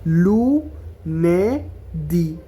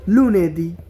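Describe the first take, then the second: First: Very slow broken syllables; লুনেদি split into slow syllables. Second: Said in the usual way. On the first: Shown as a demonstration. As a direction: say লুনেদি as lu-ne-di, slowly. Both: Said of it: "এভাবে syllable ভাঙা ভাঙা".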